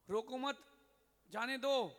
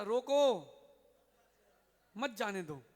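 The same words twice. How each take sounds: First: "रोको मत" एक साथ, फिर रुककर "जाने दो"; ज़ोर से "रोको मत" जोड़कर कहें, विराम के बाद "जाने दो". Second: Loud, drawn-out "रोको", long pause, then "मत जाने दो"; रोको के बाद विराम. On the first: ("रोको मत" साथ बोलें, "जाने दो" अलग) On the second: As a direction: shout "रोको" alone, then join "मत जाने दो". (ज़ोर से "रोको", फिर रुककर "मत जाने दो" एक साथ) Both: Acted. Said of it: "उसने कहा".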